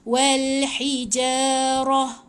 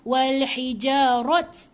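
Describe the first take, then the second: First: The final word ends with an h sound. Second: The final word ends with a t sound. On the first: The speaker calls it right. "Bila mati kena ha" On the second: The speaker calls it wrong. "Dia dah tak bunyi macam wal hijarat, tak boleh bunyi macam tu"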